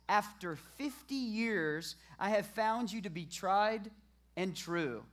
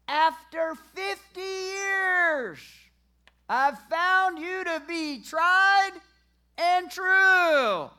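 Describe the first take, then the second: First: It is said at normal volume. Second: It is said loudly.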